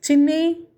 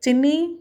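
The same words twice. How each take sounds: First: Frightened call. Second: Calling her sister's name, higher and louder, rising. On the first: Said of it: "పిలుస్తోంది, కానీ ఆమె పిలుపు ఆమెకే సరిగ్గా వినిపించటం లేదు". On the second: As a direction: call into the room, unsure where she is. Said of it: "మళ్ళీ పిలిచింది". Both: A narrator's reading.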